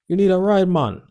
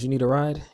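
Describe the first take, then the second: First: It is said in a Jamaican accent. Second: It is said in the speaker's plain accent.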